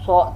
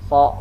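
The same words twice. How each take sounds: First: The sound is made with rounded lips. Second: The sound is made with relaxed, unrounded lips. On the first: The speaker calls it wrong. "Kedua bibir tidak boleh ikut mem membulat so, so, tidak gitu" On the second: The speaker calls it right. "so biasa aja bibir kita"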